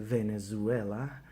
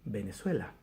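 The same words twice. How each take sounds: First: It begins with a V sound and has a Z. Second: It begins with a B sound and has an S. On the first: The speaker calls it right. "we usually don't say the V as it should be" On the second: The speaker calls it wrong. "We say the V as a B, and we say the Z as an S"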